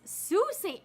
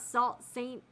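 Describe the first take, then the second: First: The first word sounds like 'soo'. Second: The first word sounds like 'salt'. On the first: The speaker calls it right. "that's pronounced Sault Saint" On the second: The speaker calls it wrong. "so it's not Salt Saint"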